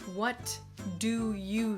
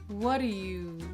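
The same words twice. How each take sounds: First: Each word is said fully and separately. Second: The words blend, and the T is dropped. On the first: "Notice that he didn't say" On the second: "We hear the D sound, we don't hear the T in the word what"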